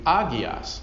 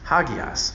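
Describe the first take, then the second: First: The word starts directly with a vowel. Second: The word starts with a breathy h sound. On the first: The speaker calls it wrong. "then you wouldn't have it, and the word would be agios" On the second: The speaker calls it right. "But it's hagios"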